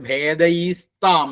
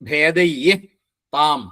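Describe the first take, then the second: First: An 's' sound comes before 'tam'. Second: No 's' sound comes before 'tam'.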